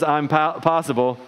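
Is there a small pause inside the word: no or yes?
yes. There is a short pause after the first sound. The speaker is capable of it.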